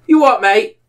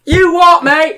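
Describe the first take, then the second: First: Higher-pitched, put-on Irish challenge; mock Irish accent. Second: Very high, louder mock Irish yell; screaming mock Irish. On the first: Gamer challenging strangers, mock Irish accent. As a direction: play at being an indignant Irish gamer. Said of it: "acting like an Irish person". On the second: Gamer yelling at other players, screaming mock Irish. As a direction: holler it in a hammed-up Irish accent. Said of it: "screaming at people acting like an Irish person".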